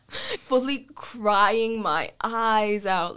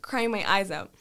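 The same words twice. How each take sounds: First: CRYING dragged out slowly for drama; "crying" and "eyes" drawn long; drawn-out emphasis. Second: Said in the usual way. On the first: Retold or imitated. Exaggerated retelling of her crying.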